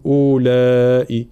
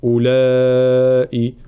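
First: أولئك with the written waw wrongly sounded as a long "oo"; wrong long first vowel. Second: أولئك with a short opening u, then a long laa; silent waw. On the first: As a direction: stretch the opening u of أولئك by mistake. (نطق واو أولئك خطأً) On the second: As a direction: keep the first u of أولئك short, hold the laa. (أولئك دون نطق الواو) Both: Shown as a demonstration. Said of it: "ولكن لا ننطقها".

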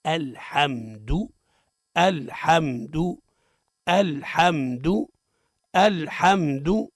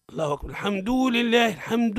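First: الحمد slow in even syllables, "al-ham-du", short final u; measured teacher's model of الحمد, clipped final "du"; correct short dal. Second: Higher, sing-song imam reading, الحمد ending in a long "duu"; mock imam intoning "al-hamduu"; over-stretched dal. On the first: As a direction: repeat الحمد deliberately, no lengthening on the د. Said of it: "الصواب هو". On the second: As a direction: chant الحمد with the final u dragged out. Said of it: "الخطأ في الدال من أوجه هو تمطيطه مده". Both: Shown as a demonstration.

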